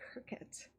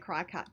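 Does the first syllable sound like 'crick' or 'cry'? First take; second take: crick; cry. First: The first syllable is said like 'crick'. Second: The first syllable is said like 'cry'. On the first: "I said it right. See" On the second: "I say cry cut just to upset people"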